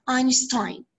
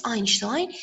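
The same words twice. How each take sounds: First: Einstein with a plain S; English pronunciation. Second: Einstein with sh for the s; Arabic pronunciation. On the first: Teacher showing how English pronounces Einstein, with an S. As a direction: say Einstein with an s sound, not sh. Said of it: "in English we pronounce it as". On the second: Teacher contrasting the Arabic pronunciation of Einstein, with sh. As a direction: say Einstein as Einshtein. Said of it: "In Arabic, it's". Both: Shown as a demonstration.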